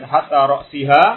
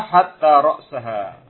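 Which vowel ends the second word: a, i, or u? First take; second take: i; a. First: The second word ends with an i vowel. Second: The second word ends with an a vowel. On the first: The particle governs the noun as a preposition. "Kalau dibaca hatta ra'siha, huruf jar" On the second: The particle joins the noun to what came before. "bin nasbi. Ya. Ini huruf atof"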